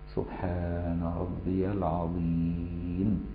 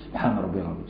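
First: It is said slowly. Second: It is said fast.

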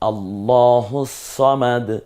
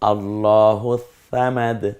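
First: Samad starts with a heavy emphatic s sound. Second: Samad starts with a soft th sound.

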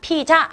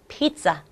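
First: It is said with Korean sounds, no z sound. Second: It is said with English sounds, a z sound. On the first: The speaker calls it wrong. "우리말로는 피자 이렇게 말하지만 ... 피자 아니고" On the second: The speaker calls it right. "여기 Z가 Z 소리가 나니까"

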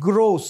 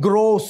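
The two takes are said the same way.

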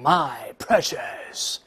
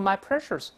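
First: The ending is said plainly without a curled tongue. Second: The ending is said with a curled, r-coloured tongue. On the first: The speaker calls it right. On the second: The speaker calls it wrong.

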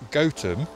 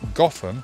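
First: The first syllable sounds like 'goat'. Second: The first syllable sounds like 'got'. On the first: It names the real village. "Gotham Village is pronounced Gotham, stemming from Goat Town" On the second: It names the comic book city. "the pronunciation Gotham was adapted for Batman"

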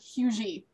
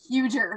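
First: The word ends with a Y sound. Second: The word ends with an R sound. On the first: The speaker calls it wrong. "That is not Hugy" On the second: The speaker calls it right. "That is huger"

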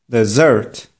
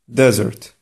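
First: The stress is on the second syllable. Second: The stress is on the first syllable. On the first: It means a sweet course after a meal. The speaker calls it right. "Prawidłowa wymowa tego słowa powinna brzmieć" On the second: It means a barren dry region. The speaker calls it wrong. "Kładąc nacisk na pierwszą sylabę, powiemy nie deser, lecz pustynia"

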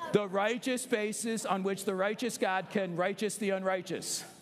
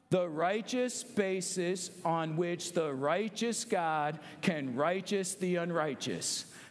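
First: It is said very fast. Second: It is said slowly.

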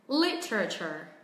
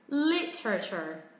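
Both takes have the same delivery.

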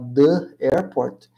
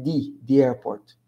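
First: The word 'the' has a short 'uh' vowel. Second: The word 'the' has a long 'ee' vowel. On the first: The speaker calls it wrong. "Em vez de falar the airport" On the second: The speaker calls it right. "Pronunciem the airport com som de i"

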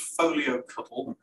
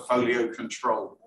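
First: The second word sounds like 'cuddle'. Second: The second word sounds like 'control'. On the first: "That's my English pronunciation" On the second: "I think most people prefer Folio Control"

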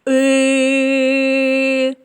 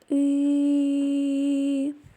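First: The sound is said loudly. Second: The sound is said quietly. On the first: It imitates a ship's horn. "Кораблик гудить голосно" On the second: It imitates a falling leaf. "Осінній листочок падає тихо"

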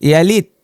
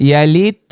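The two takes are said the same way.

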